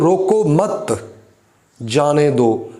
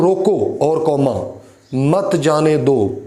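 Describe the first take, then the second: First: "रोको मत" run together, a clear break, then "जाने दो"; pause after मत. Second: "रोको", a clear break, then "मत जाने दो" as one phrase; pause after रोको. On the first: Teacher moving the comma to flip the meaning, pause after मत. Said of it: "रोको मत के बाद कॉम लगा देता हूँ". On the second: Teacher showing students how a comma after रोको changes meaning, pause after रोको. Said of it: "कि इसे रोक दो, इसे जाने नहीं देना". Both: Shown as a demonstration.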